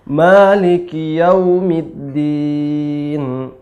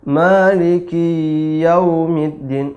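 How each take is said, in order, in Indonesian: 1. Suku kata ki vokalnya pendek. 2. Suku kata ki vokalnya dipanjangkan.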